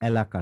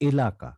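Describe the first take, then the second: First: The first vowel is an open 'a' sound. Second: The first vowel is a closed 'e' sound. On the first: The speaker calls it wrong. "এলাকা না" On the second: The speaker calls it right. "উচ্চারণটা হচ্ছে এলাকা"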